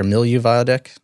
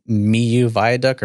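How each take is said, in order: First: Milieu said as "mill-YOO", with an L; "Milieu" with the L sounded; alternative pronunciation. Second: Miu said as "mee-YOO", no L sound; "Miu" with the L left silent; pronunciation attempt. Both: Shown as a demonstration. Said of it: "I think it's pronounced Miu".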